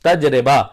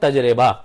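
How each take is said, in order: First: The middle syllable is 're' before the final 'ba'. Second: The middle syllable is 're' before the final 'ba'.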